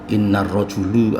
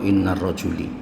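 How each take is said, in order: First: The last word ends in a "u" vowel. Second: The last word ends in an "i" vowel. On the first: "tidak boleh dibaca" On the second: "tidak boleh dibaca"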